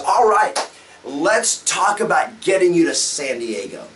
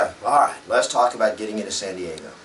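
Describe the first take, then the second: First: It is said with lively, varied energy. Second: It is said in a flat, boring way. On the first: The speaker calls it right. "the very first words out of your mouth when you sit down with them is" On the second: The speaker calls it wrong. "I didn't say, ... Don't be boring"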